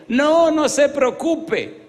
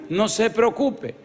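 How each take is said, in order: First: Much higher, very slow, drawn-out woman's voice; Sonia, reassuring. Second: "No se preocupe" again, high and slow but gentler; Sonia, repeating. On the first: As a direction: stretch "No, no se preocupe" high and slow to play Sonia reassuring. Pastor voices Sonia reassuring him. (Sonia tranquilizando al pastor, voz muy aguda y lenta) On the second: Pastor voices Sonia repeating herself. (Sonia repite, voz aguda, lenta y más suave) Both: Retold or imitated.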